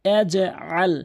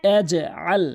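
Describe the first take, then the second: The two takes are said the same way.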